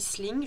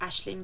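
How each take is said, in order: First: The name is read out as spelled, starting with 's'. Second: The name starts with an 'ash' sound. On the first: It lets listeners picture the letters to search for it. The speaker calls it wrong. "Je le prononce comme ça pour qu'au moins vous visualisiez les lettres" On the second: It is probably the real pronunciation. The speaker calls it right. "qui doit être Ashling du coup"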